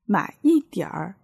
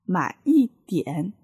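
First: The phrase ends with a rolled-tongue r sound. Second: The phrase ends without a rolled-tongue r sound.

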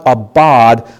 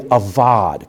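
First: The middle consonant is a hard B sound. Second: The middle consonant is a soft V sound. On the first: The speaker calls it wrong. "So it's not abad" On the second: The speaker calls it right. "the B sound in Hebrew is really more of a soft B or a V sound"

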